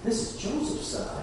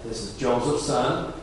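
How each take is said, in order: First: It is said in an amazed, admiring tone. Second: It is said in a scornful, dismissive tone. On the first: The speaker marvels at how gifted the boy is. "Or, wow, this is Joseph's son. Man, that's amazing" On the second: The speaker doubts a carpenter's son could be special. "there's two ways to say that. This is Joseph's son. Come on"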